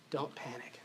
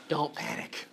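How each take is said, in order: First: "Don't panic" soft and low, falling gently; calm reassurance. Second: "don't panic" breathed softly, calming; hushed don't panic. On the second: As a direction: soothe them with a near-whisper "don't panic". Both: Shown as a demonstration.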